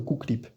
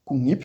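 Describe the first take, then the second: First: The middle sounds are k followed by l. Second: The middle sounds are ng followed by n. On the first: The speaker calls it wrong. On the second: The speaker calls it right.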